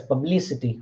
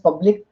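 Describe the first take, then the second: First: "publicity" with the stress on "li"; stress on second syllable. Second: "public" with the stress on "pub"; stress on first syllable. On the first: Lecturer showing which syllable gets stress, "publicity" stressed on li. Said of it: "which one get the second syllable". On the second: Lecturer illustrating stress to students, "public" stressed on pub. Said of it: "first one is stressed". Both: Shown as a demonstration.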